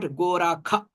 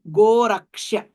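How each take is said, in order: First: The middle consonant is pronounced as 'kh'. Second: The middle consonant is pronounced as 'ksh'. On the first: The speaker calls it wrong. "not Gorakha" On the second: The speaker calls it right. "the right word would be Goraksha"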